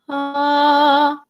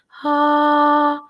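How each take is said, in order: First: The vowel starts with air and voice together. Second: The vowel starts with breathy air before voicing.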